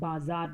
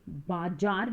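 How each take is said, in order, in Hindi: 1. बीच का व्यंजन गुंजन वाली 'z' ध्वनि है। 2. बीच का व्यंजन सामान्य 'j' ध्वनि है। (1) "ज के नीचे नुक्ता लगेगा, तो ये ... बाजार बोला जाएगा" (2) "ये बाजार नहीं"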